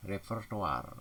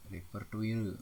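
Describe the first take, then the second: First: "Repertoire" said re-per-to-ar; "Repertoire" ending in open "-toar"; standard pronunciation. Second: "repertoire" said like "repertuil"; "repertoire" with a "-tuil" ending; nonstandard pronunciation. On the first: Teacher models the word, "Repertoire" as repertoar. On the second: Teacher shows wrong form, "repertoire" as repertuil. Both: Shown as a demonstration. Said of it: "tidak baku".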